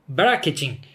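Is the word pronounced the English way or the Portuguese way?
Portuguese. The word is pronounced with a Brazilian Portuguese accent.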